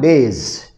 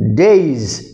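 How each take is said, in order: First: The final sound is a hissing S. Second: The final sound is a buzzing Z. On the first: The speaker calls it wrong. "not days" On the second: The speaker calls it right. "It is pronounced days"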